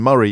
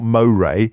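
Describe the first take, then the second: First: The name is pronounced the local Scottish way. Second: The name is pronounced the English way. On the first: The speaker calls it right. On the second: The speaker calls it wrong.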